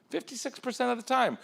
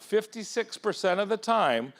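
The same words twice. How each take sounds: First: Fifty-six percent of the time pitched much higher; repeated higher. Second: Slow, each word spaced, falling at the end; slow emphatic statistic. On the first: Speaker repeating the statistic to the crowd, much higher. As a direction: lift the repeat up high for emphasis. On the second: Speaker stating the breakup statistic to the audience, slow and weighty. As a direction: lay out fifty-six percent of the time deliberately. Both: Shown as a demonstration.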